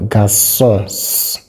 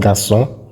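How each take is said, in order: First: The S sound is drawn out and exaggerated. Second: The S sound is short and ordinary. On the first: The speaker calls it wrong. "I'm making this sound just for emphasis. That's not how you pronounce it" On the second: The speaker calls it right. "It's pronounced garçon"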